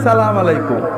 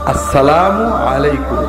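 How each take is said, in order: First: The opening syllables are dropped, giving a clipped greeting. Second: Every syllable is said, giving the full greeting. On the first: It is not a proper greeting at all. The speaker calls it wrong. "এটা কোনো সালাম হলো না" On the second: It is the proper greeting. The speaker calls it right. "না, আসসালামু আলাইকুম"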